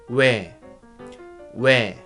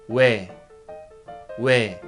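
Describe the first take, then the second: Both takes have the same delivery.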